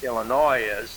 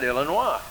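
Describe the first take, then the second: First: The final s is sounded at the end. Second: The final s is left silent. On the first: This is how it is commonly said today. The speaker calls it wrong. "even the English wouldn't pronounce I L I N O I S" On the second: This is how the English would say it. The speaker calls it right. "They call it Illinois"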